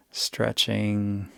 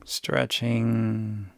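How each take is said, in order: Both takes have the same delivery.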